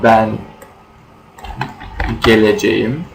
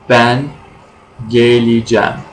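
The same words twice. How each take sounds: First: The verb is said in its full form. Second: The verb is said in a reduced form. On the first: This is the standard written form. "in written language" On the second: This is the everyday spoken form. "in spoken language, we say"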